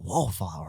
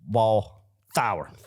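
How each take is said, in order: First: The second part starts with an 'fl' sound. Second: The second part starts with a 'th' sound. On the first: The speaker calls it wrong. "they said Tremel Wallflower coming in. I was like" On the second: The speaker calls it right. "I know that it is Wall Thower"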